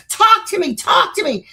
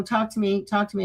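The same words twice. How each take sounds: First: Raised, higher demanding yell; retold screaming. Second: Said in the usual way. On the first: Retelling screaming at the demon box, raised yell. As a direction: yell it at a box, mock out of control. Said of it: "screaming at the box".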